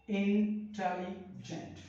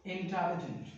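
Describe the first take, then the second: First: intelligent broken into three slow beats, in-telli-gent; syllable by syllable. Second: Said in the usual way. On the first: Shown as a demonstration. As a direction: say intelligent very slowly, pausing between its three parts. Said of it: "हम तीन बार में पढ़ रहे हैं". (Intelligent को तीन हिस्सों में रुक-रुक कर, धीरे बोलते हुए) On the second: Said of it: "कितने बार में बोल रहे हैं".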